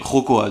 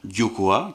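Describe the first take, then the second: First: The word starts with a harsh throaty sound. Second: The word starts with a soft y-like sound. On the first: This is how it is said on the Spanish side. "avec euh, la Jota" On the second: This is how it is said on the French side. "de ce côté-ci"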